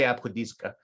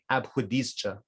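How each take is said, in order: First: The consonant before the final vowel is k. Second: The consonant before the final vowel is ch. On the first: This is how one village speaker says it. "he would say abkhudizka" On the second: This is how some other village speakers say it. "some other people, also from villages, might say abkhudizcha"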